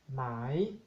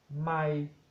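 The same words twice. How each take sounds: First: It is said on a rising tone. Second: It is said on a level mid tone. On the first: It means silk. "Tono creciente" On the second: It means a mile. "el tono medio"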